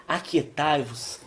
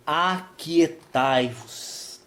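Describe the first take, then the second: First: Said in the usual way. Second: Very slow, each syllable stretched; drawn-out verse reading. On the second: Shown as a demonstration. Preacher reading the verse to the church, drawn out slowly. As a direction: let the verse hang in the air. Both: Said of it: "Então o verso dez diz assim".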